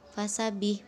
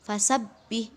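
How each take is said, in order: First: The b sound is short and single. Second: The b sound is pressed and held double. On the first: The speaker calls it wrong. "bukan fasabih" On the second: The speaker calls it right. "maka ditekan"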